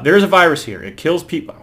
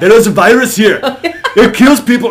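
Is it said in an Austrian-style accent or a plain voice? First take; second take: plain voice; Austrian-style accent. First: It is read in the speaker's ordinary accent. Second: It is said in an imitated Austrian-style accent.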